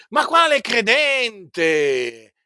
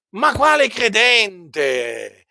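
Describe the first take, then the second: No difference in how they are said.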